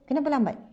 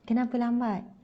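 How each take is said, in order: First: It is asked in an angry, scolding tone. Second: It is asked gently, without sounding angry.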